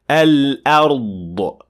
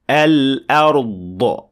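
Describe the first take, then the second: First: The final consonant ends with a released burst. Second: The final consonant ends with a released burst.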